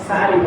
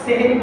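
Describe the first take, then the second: First: The word begins with 'sa', said 'sahari'. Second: The word begins with 'se', said 'sehri'. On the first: The speaker calls it right. "মুখে আমাদের বলতে হবে কি? সাহারি শব্দটা বলতে হবে।" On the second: The speaker calls it wrong. "আমরা কিন্তু সেহরি বলবো না।"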